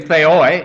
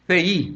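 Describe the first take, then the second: First: The word ends with an 'oy' sound. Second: The word ends with an 'ee' sound. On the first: "I can say theoi if you want to, but that's kind of Cockney" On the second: "I use the modern Greek pronunciation"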